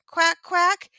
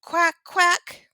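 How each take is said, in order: First: High, loud duck quacks rising at the end; high, loud quacking with a rising finish. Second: High, loud duck quacks; high, loud quacking demo. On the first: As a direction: quack up high and lift the last one. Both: Shown as a demonstration. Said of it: "they make a sound like this".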